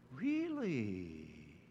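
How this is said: It is said in a soft, mysterious tone.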